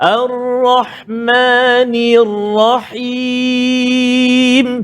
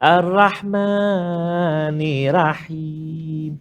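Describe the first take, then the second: First: The r in Rahim is thick and heavy. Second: The r in Rahim is thin and light. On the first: The speaker calls it right. "Tafkhim, tebal ra" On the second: The speaker calls it wrong. "ra tu dia bunyi tipis"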